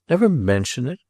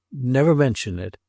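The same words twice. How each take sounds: First: "Never mention it" echoed as a rising question; disbelieving echo, "Never mention it" rising at the end; incredulous question. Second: "Never mention it" as a falling command; firm order. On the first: Incredulous echo of Roderick's order. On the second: Roderick repeats his order firmly. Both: A narrator's reading.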